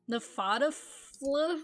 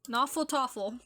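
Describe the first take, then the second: First: The word starts with a short 'neff' sound. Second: The word starts with a long 'naw' sound.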